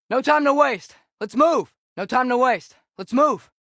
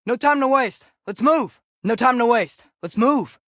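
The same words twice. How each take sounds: The two takes are said the same way.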